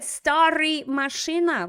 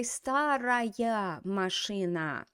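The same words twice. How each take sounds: First: «Старый машина» quoted louder, as the student said it; student's wrong version. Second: Slow «Старая машина», stressing the feminine ending; corrected form. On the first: Retold or imitated. Teacher quotes the student's wrong adjective. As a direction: repeat the error back. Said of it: "And then he said". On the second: Shown as a demonstration. Teacher slowly models the feminine form. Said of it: "So we need to say".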